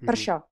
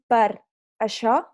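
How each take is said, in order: First: Some sounds of the phrase are dropped. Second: Every sound of the phrase is said clearly. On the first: "diem ... ens mengem molt les lletres" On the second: "en lloc de dir"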